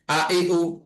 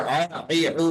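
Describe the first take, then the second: First: আ, ই, উ each with an abrupt glottal attack, not throaty; firm hamza stop before আ, ই, উ; hard glottal push. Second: Throaty Arabic ain on আ, ই, উ; ain from the throat. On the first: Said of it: "একদম ধাক্কা খাবে". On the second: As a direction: pull আ, ই, উ out of the throat. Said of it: "আইনের উচ্চারণটা গলা থেকে আসবে". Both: Shown as a demonstration.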